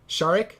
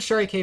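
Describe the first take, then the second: First: The name is said as one blended word. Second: The final K is spoken as a letter. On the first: The speaker calls it wrong. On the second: The speaker calls it right.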